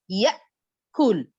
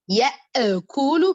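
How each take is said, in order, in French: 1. Une occlusion glottale suit la première syllabe. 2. Un son de voyelle 'e' suit la première syllabe. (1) "au lieu d'entendre le son E, on va dire" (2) "au lieu de dire, ya e koulou, par exemple, ya e, e, e, d'attendre le son e"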